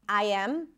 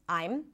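First: Both words are said in full and kept separate. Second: The words are squeezed into one short contracted syllable. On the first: "he's also reducing a lot of things" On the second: "he's also reducing a lot of things"

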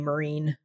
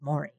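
First: The first syllable sounds like 'mer'. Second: The first syllable sounds like 'more'. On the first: The speaker calls it wrong. "can't pronounce my name and would always call me Marine" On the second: The speaker calls it right. "it's Maureen. Like it's just, it's like more"

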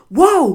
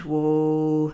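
First: The word is shouted quickly and sharply. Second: The word is said slowly and calmly. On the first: The rider is panicking and wants out now. The speaker calls it wrong. "they're shouting, whoa, whoa, whoa... It is urgent, it is quick, it is fast, it is sharp" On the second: The rider is calm and lowers the energy. The speaker calls it right. "hold it together long enough to be able to say, and whoa"

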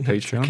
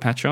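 First: The word is said in the American way. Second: The word is said in a non-American way. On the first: "I know Americans say Patreon" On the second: "I call it Patreon"

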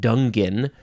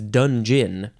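First: It starts with 'dung' and ends in 'in'. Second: It is said with a soft 'j' sound: 'dun-jun'. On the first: The speaker calls it wrong. "Even though you don't pronounce it that way, it's not dungin" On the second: The speaker calls it right. "It's dungeon"

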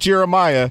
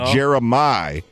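First: The name ends with an 'eye-uh' sound. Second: The name ends with a short 'ih' sound. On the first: The speaker calls it wrong. "Not Jeremiah" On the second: The speaker calls it right. "Because it's IH at the end of his name"

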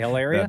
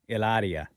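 First: The name is said in a plain English way. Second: The name is said with a foreign accent. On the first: "I can just say Hilaria" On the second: "You don't have to say it with the accent anymore"

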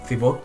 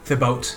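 First: The name is said with French pronunciation. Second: The name is said the way it is spelled.

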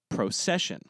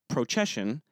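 First: The c is said with an s sound. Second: The c is said with a ch sound. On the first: The speaker calls it right. "but procession" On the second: The speaker calls it wrong. "the word is not procession"

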